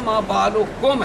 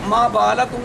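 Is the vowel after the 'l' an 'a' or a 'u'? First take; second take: u; a. First: The vowel after the 'l' is 'u'. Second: The vowel after the 'l' is 'a'. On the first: The speaker calls it right. "है" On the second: The speaker calls it wrong. "नहीं है"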